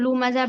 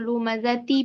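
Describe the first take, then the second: First: The word ends without a final t sound. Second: The word ends with a final ti syllable. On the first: The reader stops at this word. "अगर हम यहाँ पर रुकेंगे तो लू मजा पढ़ेंगे" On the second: The reader continues to the next word. "अगर नहीं रुकेंगे तो लू मजा ती पढ़ेंगे"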